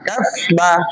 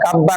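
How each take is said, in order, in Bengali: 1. আলাদা ba-এর আগে f রাখা হয়। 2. f লোপ পেয়ে দ্বিত্ব b হয়।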